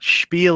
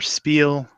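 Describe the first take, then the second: First: The word is said with a German pronunciation. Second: The word is said with an English pronunciation.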